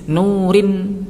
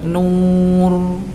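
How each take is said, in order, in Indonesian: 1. R-nya ringan dan tipis, kata berlanjut. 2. R-nya berat dan tebal, kata berhenti. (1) "maka harus dibaca tarqiq" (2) "maka nanti bacanya harus tebal"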